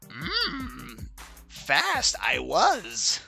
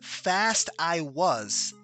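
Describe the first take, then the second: First: It is said in a Yoda voice. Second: It is said in a normal voice.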